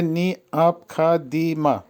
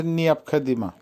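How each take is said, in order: First: নিয়াপখাদিমা broken up as নি-আপ-খা-দি-মা; syllable-by-syllable pronunciation. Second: Said in the usual way. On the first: Shown as a demonstration. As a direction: spell out নিয়াপখাদিমা piece by piece. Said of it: "উচ্চারণ হবে". (নিয়াপখাদিমা ভেঙে ভেঙে উচ্চারণ) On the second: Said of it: "আবার বলছি".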